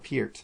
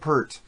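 First: The name is said with a vowel unlike 'Pert'. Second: The name is said to rhyme with 'hurt'. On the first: The speaker calls it right. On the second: The speaker calls it wrong.

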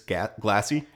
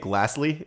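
First: No L sound comes before the final Y sound. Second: An L sound comes before the final Y sound. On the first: The speaker calls it right. "It's glassy" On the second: The speaker calls it wrong. "You also kept saying glassly"

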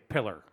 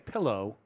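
First: The word ends with an 'er' sound. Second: The word ends with an 'oh' sound. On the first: The speaker calls it wrong. "when people just mispronounce a word" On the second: The speaker calls it right. "instead of saying pillow"

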